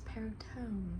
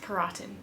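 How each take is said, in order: First: The name is said in a non-Americanized way. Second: The name is said in an Americanized way. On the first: The speaker calls it right. "I just figured out how to say it" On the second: The speaker calls it wrong. "like I was saying, like some American or something"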